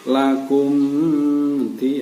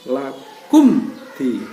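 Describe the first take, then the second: First: The m is blurred into the following d. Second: The m is pronounced clearly before the d. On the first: The speaker calls it wrong. "tidak boleh lakum di. Nah, itu tidak diperbolehkan" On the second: The speaker calls it right. "Harus dibaca jelas"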